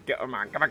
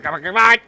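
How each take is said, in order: First: Said in the usual way. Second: Higher, much louder come on; excited urging. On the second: Real, not acted. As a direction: egg it on, rising excitement.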